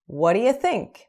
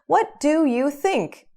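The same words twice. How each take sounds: First: The words run together into one linked chunk. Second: Each word is said separately and clearly. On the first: The speaker calls it right. "a gente junta tudo" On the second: The speaker calls it wrong. "Ninguém fala assim"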